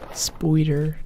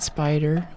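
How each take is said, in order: First: The first vowel sounds like 'oy'. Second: The first vowel sounds like 'eye'. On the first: "We say spoider, We had O to most things" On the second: "not spider"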